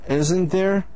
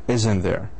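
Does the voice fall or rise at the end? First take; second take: rise; fall. First: The voice rises at the end of the tag. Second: The voice falls at the end of the tag. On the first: The speaker is asking a real question. "unsure of the answer" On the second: The speaker already knows the answer. "sure of the answer"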